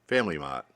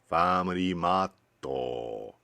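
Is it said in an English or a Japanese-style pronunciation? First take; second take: English; Japanese. First: It is said with an English pronunciation. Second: It is said Japanese-style, with a vowel added. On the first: The speaker calls it wrong. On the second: The speaker calls it right.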